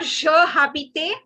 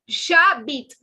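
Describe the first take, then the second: First: The two words are kept separate, with a vowel between. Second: The two words are run together into one syllable. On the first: The speaker calls it wrong. "It is not je habite" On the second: The speaker calls it right. "it is j'habite"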